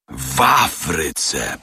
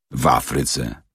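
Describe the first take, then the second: First: Slow, marvelling repetition; repeated with wonder. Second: Said in the usual way. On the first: Acted. Servant marvels at being in Africa, slow wonder. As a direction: savour the word, amazed. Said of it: "powtórzył z podziwem obieży świat". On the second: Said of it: "powtórzył z podziwem".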